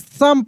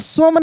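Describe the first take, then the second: First: The vowel is a short open 'uh' sound. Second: The vowel is a long rounded 'oh' sound. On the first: The speaker calls it right. "सम पढ़ेंगे" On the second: The speaker calls it wrong. "सोम नहीं"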